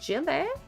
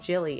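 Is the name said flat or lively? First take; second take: lively; flat. First: The name is said with lively, playful energy. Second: The name is said plainly, without extra energy. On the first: The speaker calls it right. "You have to say it with some spice" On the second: The speaker calls it wrong. "it's not just Jilly"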